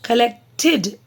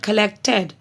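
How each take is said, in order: First: The ending has a clear 'id' sound. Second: The ending lacks a clear 'id' sound. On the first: The speaker calls it right. "Collected id" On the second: The speaker calls it wrong. "not collected"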